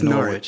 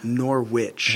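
First: It is said with a British pronunciation. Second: It is said with an American pronunciation.

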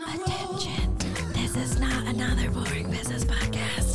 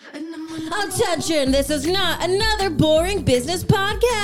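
First: It is said with less yelling. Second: It is shouted very loudly.

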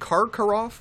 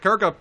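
First: It is said with the R after the first syllable. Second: It is said without the R after the first syllable. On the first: The speaker calls it right. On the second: The speaker calls it wrong.

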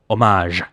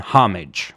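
First: The word is pronounced the French way. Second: The word is pronounced the English way. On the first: "in French, it's homage" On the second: "I do not use the English pronunciation homage"

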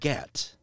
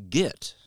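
First: The vowel sounds like the one in 'set'. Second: The vowel sounds like the one in 'sit'. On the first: This is the pronunciation the speaker is pushed to use. The speaker calls it right. "rides my ass about it being get" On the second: This is the speaker's own habitual pronunciation. The speaker calls it wrong. "I say git"

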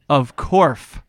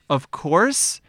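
First: The final word ends with an f sound. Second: The final word ends with an s sound. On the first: "I'm going to say of corf" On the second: "instead of saying the word... Of course"

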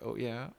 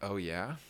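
First: It sounds like a drawn-out, sultry moan. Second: It sounds like a plain, rising question.

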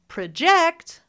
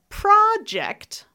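First: The stress is on the second syllable. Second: The stress is on the first syllable. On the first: It is a verb. "But if I say project, that's" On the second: It is a noun: a piece of work. "that's the noun"

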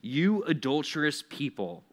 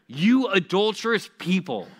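First: It is read mildly, without much intensity. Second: It is read with strong intensity.

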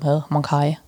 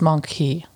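First: The word ends with an 'eye' sound. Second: The word ends with an 'ee' sound. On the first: "if I would read it in a German novel, I would prosky it for monkai" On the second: "But in English, it's just monkey"

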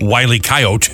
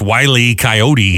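First: Coyote is said in the southwestern way. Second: Coyote is said in the usual, non-southwestern way. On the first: The speaker calls it wrong. "It's not" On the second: The speaker calls it right. "It's Wiley Coyote"

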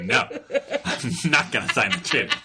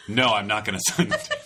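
First: It is said in an angry tone. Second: It is said in a flat, calm tone.

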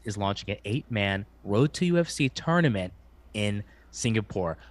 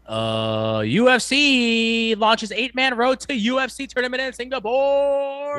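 First: It is said in an ordinary speaking voice. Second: It is said in a booming announcer voice. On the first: "I'll repeat in a normal voice" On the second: "What I wish Bruce Buffer would say is"

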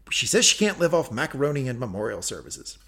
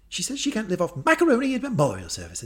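First: It is said in the speaker's ordinary accent. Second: It is said in a posh British accent.

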